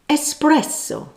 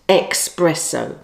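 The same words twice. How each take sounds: First: The word begins with an 'ess' sound. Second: The word begins with an 'ex' sound. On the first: The speaker calls it right. "The correct word is espresso" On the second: The speaker calls it wrong. "not espresso"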